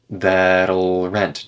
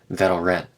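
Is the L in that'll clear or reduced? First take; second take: clear; reduced. First: The L in that'll is clearly pronounced. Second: The L in that'll is reduced to uh.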